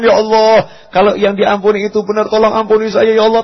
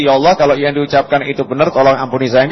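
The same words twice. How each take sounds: First: Higher-pitched, earnest pleading prayer; truly fearful prayer. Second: Quick, hollow prayer, just going through the motions; perfunctory prayer. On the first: Preacher shows a sincere prayer, higher and pleading. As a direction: plead as if you're truly afraid. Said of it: "Takut benar nih". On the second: Preacher mocks a hollow prayer, rushed and insincere. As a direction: rattle it off fast like empty lip service. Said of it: "Bukan basa-basi loh ya". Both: Shown as a demonstration.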